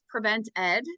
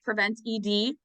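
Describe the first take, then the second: First: The ending is said as the single word Ed. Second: The ending is spelled out as letters E D. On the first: The speaker calls it right. "our name is Prevent Ed" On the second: The speaker calls it wrong. "not Prevent E D"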